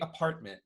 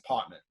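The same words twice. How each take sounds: First: It is said without a New York accent. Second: It is said with a Brooklyn New York accent.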